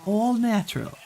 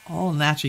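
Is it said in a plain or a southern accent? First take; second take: southern; plain. First: It is said in a southern accent. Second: It is said in a plain accent.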